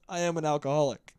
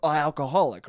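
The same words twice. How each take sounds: First: Laughing confession. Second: Said in the usual way. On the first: Real, not acted. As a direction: admit it through a laugh. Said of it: "This just means I". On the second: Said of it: "the more you're like".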